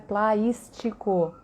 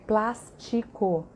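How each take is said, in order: First: The vowel before s gets an added i glide. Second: The vowel before s has no added i glide. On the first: The speaker calls it wrong. "e não é plaístico" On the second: The speaker calls it right. "é plástico"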